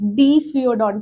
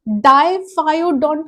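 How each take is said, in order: First: The first syllable sounds like 'dee'. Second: The first syllable sounds like 'die'. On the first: "डीफियोडोंट भी pronounce कर सकते हो" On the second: "अब इसे आप डाइफायोडोंट भी प्रोनाउंस कर सकते हो"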